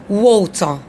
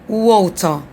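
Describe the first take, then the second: Both takes have the same delivery.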